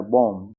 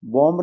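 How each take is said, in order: First: बॉम्ब ending on m, no b; silent b. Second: बॉम्ब with a clear final b; b sounded. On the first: Teacher correcting learners, silent final b in बॉम्ब. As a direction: finish बॉम्ब with closed lips on m. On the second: Teacher showing how not to read it, b sounded in बॉम्ब. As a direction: let the b pop after m in बॉम्ब. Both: Shown as a demonstration. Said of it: "बॉम्ब नहीं पढ़ना है".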